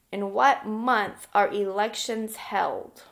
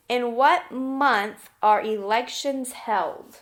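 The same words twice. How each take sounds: The two takes are said the same way.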